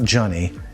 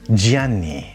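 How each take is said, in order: First: It is said like the English name Johnny. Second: It is said the Italian way, as Gianni. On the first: The speaker calls it wrong. "not Johnny" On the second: The speaker calls it right. "Gianni, okay?"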